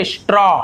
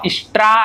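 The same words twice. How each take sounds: First: स्ट्रॉ with a rounded aw vowel; correct pronunciation. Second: स्ट्रा with a flat open aa vowel; wrong reading. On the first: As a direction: say स्ट्रॉ clearly as strɔ. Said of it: "स्ट्रा ऐसे नहीं होगा". (सही उच्चारण, स्ट्रॉ गोल ओ के साथ) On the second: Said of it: "ऐसे नहीं होगा". (गलत उच्चारण, स्ट्रा खुले आ के साथ) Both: Shown as a demonstration.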